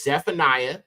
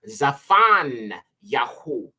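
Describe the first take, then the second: First: The name ends with an -iah sound. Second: The name ends with a -yahu sound. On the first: This is the usual English form. The speaker calls it wrong. "The next one is Zephaniah" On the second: This is the original Hebrew form. The speaker calls it right. "this is actually pronounced Zafan Yahu"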